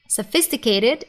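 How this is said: It is said with an American accent, soft T. "is American pronunciation"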